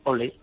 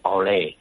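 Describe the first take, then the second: First: The word is said short and quick. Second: The word is stretched out long. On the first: The speaker calls it wrong. "es muy cortito" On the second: The speaker calls it right. "que es más largo"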